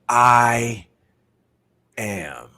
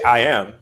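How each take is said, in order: First: It is said slowly with deep feeling. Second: It is said flatly, by rote.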